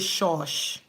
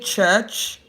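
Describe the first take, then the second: First: The word begins and ends with sh sounds. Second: The word begins and ends with ch sounds. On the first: "you go and say shush. You are wrong" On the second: "You want to say church"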